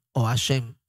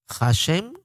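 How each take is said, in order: First: HASHEM with no H, "a-SHEM"; silent H. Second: HASHEM opening on a soft Spanish J, "ja-SHEM"; soft J sound. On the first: Teacher giving the other way to say Hashem, silent H. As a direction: start "Hashem" straight on the open A. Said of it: "algunos no la pronuncian". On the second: Teacher showing how some pronounce the hey in Hashem, soft J. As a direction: give the H of "Hashem" a gentle throat friction. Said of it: "una J suave". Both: Shown as a demonstration.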